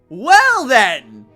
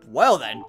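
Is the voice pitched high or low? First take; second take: high; low. First: The voice is pitched very high. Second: The voice is pitched fairly low.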